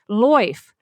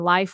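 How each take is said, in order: First: The vowel sounds like 'oy'. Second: The vowel sounds like the modern 'eye'.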